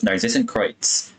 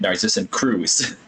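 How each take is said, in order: First: The last word is not said like 'Cruz'. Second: The last word is said like 'Cruz'. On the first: The speaker calls it right. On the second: The speaker calls it wrong.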